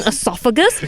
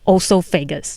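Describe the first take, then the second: First: The first vowel sounds like 'ee'. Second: The first vowel sounds like 'oh'. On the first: The speaker calls it right. "you mean esophagus?" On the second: The speaker calls it wrong. "I said it wrong my whole life"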